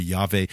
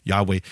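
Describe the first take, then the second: First: Yahweh said as YAH-vay, v in the middle; Yahweh: first syllable YAH, then vay with a v sound. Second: Yahweh: YAH, then way with a round w. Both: Shown as a demonstration. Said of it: "no one is sure about the pattern of the vowels".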